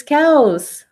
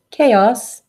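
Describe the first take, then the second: First: Cows, chaos said the Spanish way like caos; Spanish pronunciation. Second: Chaos said the English way, KAY-oss; English pronunciation. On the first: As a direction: say cows as Spanish caos, two quick vowels. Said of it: "the way chaos is pronounced in Spanish". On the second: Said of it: "the way chaos is pronounced in Spanish is cows". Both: Shown as a demonstration.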